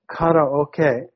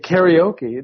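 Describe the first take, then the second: First: It is pronounced in a non-American way. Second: It is pronounced in the American way. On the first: Listeners in America would not understand the word. The speaker calls it wrong. "nobody knows what you're talking about" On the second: Listeners in America would understand the word. The speaker calls it right. "then everyone knows"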